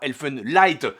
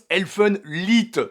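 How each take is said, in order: First: The last syllable has an 'eye' vowel. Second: The last syllable has an 'ee' vowel. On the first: The speaker calls it wrong. "pas Elfenlight" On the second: The speaker calls it right. "ça se prononce Elfenlied"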